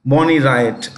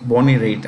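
First: "Raitt" said as RYE-it; mistaken pronunciation. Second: "Raitt" said like "rate"; one-syllable "Raitt", rhyming with "late"; corrected pronunciation. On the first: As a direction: say "Raitt" like "riot". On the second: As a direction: say "Raitt" with a long ay. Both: Shown as a demonstration. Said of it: "No, no, it's [name]".

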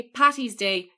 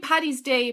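First: "Patty's" with a clear T sound in the middle; mistaken T pronunciation. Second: "Paddy's" with a clear D sound in the middle; Irish D pronunciation. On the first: Irish guest quoting the American mistake, "Patty's" said with a T. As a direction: say "Patty's" with T in place of D. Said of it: "It's not P A T T Y". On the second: Irish guest correcting Americans, "Paddy's" said with a D. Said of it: "it's P A D D Y". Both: Shown as a demonstration.

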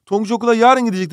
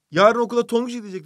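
First: Yarın lifted right before gidecek; teacher marks yarın, lifted before the verb; stress on yarın. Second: Tonguç set just before gidecek and leaned on; stress on Tonguç. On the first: Teacher to class, stressing yarın as adverbial. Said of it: "zarf tamlacısında". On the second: Teacher to class, stressing Tonguç as subject. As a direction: lean on Tonguç right before the verb. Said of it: "burada vurgu nerede". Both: Shown as a demonstration.

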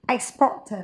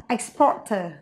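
The two takes are said the same way.

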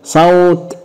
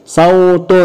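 First: صوت as sawt; sukun ending. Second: صوت as saw-tun, higher; voweled ending. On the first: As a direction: stop صوت on a bare t. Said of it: "طب سكون". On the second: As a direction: draw out صوت to end in "tun". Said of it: "هننطقها مرتين تشكيل وسكون". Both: Shown as a demonstration.

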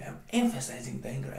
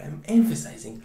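First: Said in the usual way. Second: "emphasizing" punched much louder; "emphasizing" shouted out with force; emphatic. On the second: Shown as a demonstration. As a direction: hit "emphasizing" hard and loud.

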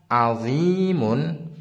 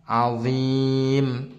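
First: Azimun with a long drawn-out zii and the final -mun sounded; full ending. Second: Azim with a long zii, closing on a silent-vowel m; stopped ending. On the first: Teacher shows learners the usual reading, full -mun ending. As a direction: say "azimun" slowly, voicing the un ending. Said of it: "ini bacanya kan". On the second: Teacher shows learners how to stop, sukun ending. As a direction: say "azim", dropping the un and resting on the m. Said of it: "sekarang dibacanya". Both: Shown as a demonstration.

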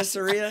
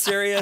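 First: "Saria" said as sur-EE-uh; "Saria" as a misspoken Syria, sur-EE-uh; teasing mispronunciation. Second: "Saria" said as SEER-ee-uh; "Saria" with a clear ee in the first syllable; standard pronunciation. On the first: Retold or imitated. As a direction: quote the slip "Saria" with a blurred first syllable. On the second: Shown as a demonstration. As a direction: say "Saria" the usual Syria way. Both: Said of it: "Didn't you pronounce Saria, Saria?".

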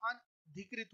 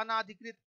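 First: अनधिकृत said slowly and softer, short अ; slow careful अनधिकृत; teacher giving the right form gently; correct form. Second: अनाधिकृत with a long आ after अन; teacher voicing the students' error; wrong form. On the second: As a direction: say अनाधिकृत as the common mistake. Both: Shown as a demonstration. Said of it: "अनाधिकृत नहीं होता".

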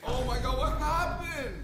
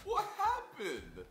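First: High, slow, drawn-out shock; shocked squeal. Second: High, slow squeal of disbelief; shocked squeal. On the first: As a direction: squeal it out in disbelief. Shocked at ruined donuts. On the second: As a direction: stretch it out, aghast. Repeats the shock. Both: Real, not acted.

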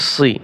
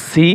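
First: "সি" with a thick, emphatic s; heavy saad sound. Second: "সি" with a thin, plain s; light seen sound. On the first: Teacher repeats the saad syllable, "সি" made heavy. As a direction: darken "সি" with the tongue back raised. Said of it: "صاد জের সি". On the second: Teacher repeats the seen syllable, "সি" kept light. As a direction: say "সি" lightly, tongue flat. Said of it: "সিন জের সি". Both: Shown as a demonstration.

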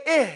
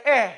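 First: "eh" with a flat tongue, airy ending; tongue low and flat. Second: "eh" with the tongue lifted up; tongue raised. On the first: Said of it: "Your tongue is flat". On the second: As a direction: say the wrong "eh", raising the tongue. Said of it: "raise it up and say". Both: Shown as a demonstration.

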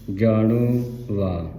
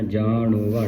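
First: ਜਾਣੋ, a break, then ਵਾ dropping in pitch; split pronunciation. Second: ਜਾਣੋ and ਵਾ joined as one word; no break between ਜਾਣੋ and ਵਾ; run-together misreading. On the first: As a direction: clear pause between ਜਾਣੋ and ਵਾ. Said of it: "ਸ਼ੁੱਧ ਉਚਾਰਨ ਹੈ". (ਜਾਣੋ ਤੇ ਵਾ ਵਿਚਕਾਰ ਰੁਕੋ) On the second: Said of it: "ਨਹੀਂ ਪੜ੍ਹਨਾ". (ਜਾਣੋ ਵਾ ਜੋੜ ਕੇ ਬੋਲੋ) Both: Shown as a demonstration.

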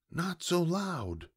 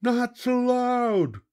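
First: Soft, slow, high-pitched hush; hushed scolding. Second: Slow, very high crew roar; pirate roar. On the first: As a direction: quietly hush the noisy pirates. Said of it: "I said". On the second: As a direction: roar it back like heedless pirates. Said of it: "roared the pirates". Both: A narrator's reading.

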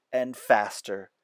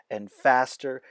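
Both takes have the same delivery.

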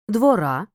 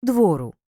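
First: "Двора" stressed on the final А; "Двора" with unstressed О and stressed ending; stress on last syllable. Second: "двору" stressed on the О; "двору" with stressed О and unstressed ending; stress on first syllable. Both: Shown as a demonstration. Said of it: "все залежить від наголосу".

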